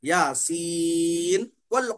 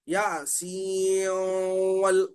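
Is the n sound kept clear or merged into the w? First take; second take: clear; merged. First: The n is pronounced clearly before the w. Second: The n merges into the w with nasalization. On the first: The speaker calls it right. "इजहार करेंगे। ... इस तरह पढ़ेंगे" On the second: The speaker calls it wrong. "सीओ बोल के हम जिस तरह उसमें हम गुन्ना कर रहे थे ना"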